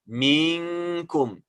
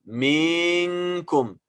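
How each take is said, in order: The two takes are said the same way.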